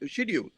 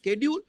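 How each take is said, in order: First: The word begins with a 'sh' sound. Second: The word begins with a 'sk' sound. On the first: "ব্রিটিশরা বলে শিডিউল" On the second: "আমেরিকানরা ওটাকে বলে স্কেডিউল"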